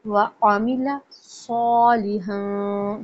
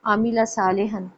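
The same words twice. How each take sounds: First: व आमिला सालिहन slow with a heavy स्वाद; teacher modelling the verse; slow recitation. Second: आमिला with one beat on each vowel; not the Urdu way; short vowels. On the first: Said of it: "सौ देखें सौद है". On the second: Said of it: "इसको उर्दू की तरह नहीं पढ़ेंगे". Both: Shown as a demonstration.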